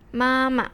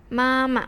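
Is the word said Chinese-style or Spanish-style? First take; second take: Chinese-style; Chinese-style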